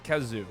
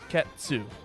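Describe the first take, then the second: First: The middle consonant is a plain z sound. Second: The middle consonant has a t sound, ts. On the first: The speaker calls it wrong. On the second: The speaker calls it right. "the T or the Z makes a t sound"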